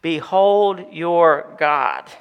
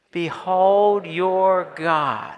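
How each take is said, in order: First: Very slow, weighty "Behold your God"; drawn-out "Behold your God" with falling end; slow emphatic. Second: Very slow "Behold your God" for the congregation; drawn-out "Behold" leading a response; slow call and response. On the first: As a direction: let each word land. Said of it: "summary of the book of Isaiah in three words". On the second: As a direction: lead the church in saying it. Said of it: "Let's try that, church". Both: Shown as a demonstration.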